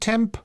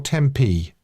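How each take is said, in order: First: It is said as one syllable, final vowel silent. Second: It is said as two syllables, final vowel voiced. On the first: "is it just temp? Is it a silent E?" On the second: "Is the emphasis on P E"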